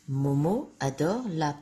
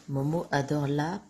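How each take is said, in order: No difference in how they are said.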